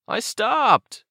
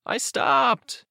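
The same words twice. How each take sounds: First: Very high character protest; protesting kid. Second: Put-on very high, mildly raised kid's call. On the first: Acted. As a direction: pitch it way up in self-defence. Aiden protests as the car honks. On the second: A narrator's reading. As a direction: call it back to the car behind. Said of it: "calling out".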